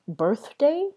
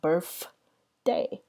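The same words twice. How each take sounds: First: The middle consonant is a th sound. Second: The middle consonant is an f sound.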